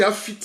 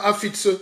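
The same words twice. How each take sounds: First: "Afit" clipped short with no final syllable; right pronunciation. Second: "Afitse" with the final syllable "se" sounded out; wrong pronunciation. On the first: The guru shows followers the right way, short "Afit". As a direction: cut "Afit" off right after the t. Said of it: "on dit Afit". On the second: The guru shows followers the wrong way, "Afitse" with its ending. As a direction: say "Afitse" with the full ending kept. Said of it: "On ne dit pas Afitse". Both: Shown as a demonstration.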